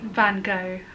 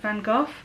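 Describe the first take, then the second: First: It is said the American way. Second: It is said the British way.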